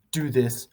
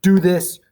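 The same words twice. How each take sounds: First: Said in the usual way. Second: Loud, high barked order; commanding. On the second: Shown as a demonstration. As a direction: give the order with full authority. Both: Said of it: "the attitude is one of authority and resolve".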